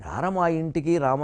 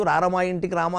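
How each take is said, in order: First: Slow, softer heartfelt "రార మా ఇంటికి రామ"; sincere invitation. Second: "రార మా ఇంటికి రామ" tossed off without devotion; hollow flattering invitation. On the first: Teacher showing singers how to truly invite Rama, slow and soft. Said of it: "నిజంగా ఆహ్వానించాలమ్మా". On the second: Teacher mocking a singer who sings for an MLA, hollow flattery. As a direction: say "రార మా ఇంటికి రామ" like an empty courtesy to a politician. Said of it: "ఎమ్మెల్యేనో ఎంపీనో ఆహ్వానిస్తూ ... అని పాడకూడదు". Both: Shown as a demonstration.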